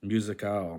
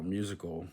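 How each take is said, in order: First: "Musical" as mu-si-CAL; full "al" closing "Musical"; Spanish ending. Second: Said in the usual way. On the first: Shown as a demonstration. Learner reading the Spanish word, "Musical" with full "al". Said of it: "stressed at the last syllable". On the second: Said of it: "words that end in al".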